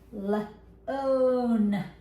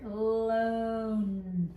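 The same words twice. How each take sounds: First: The word is stretched out and said loudly. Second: The word is said quickly and softly. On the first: "say it louder so they can hear it" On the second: "keep everything short"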